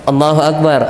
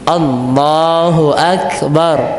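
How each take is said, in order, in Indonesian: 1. Vokal setelah 'l' itu pendek. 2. Vokal setelah 'l' itu panjang.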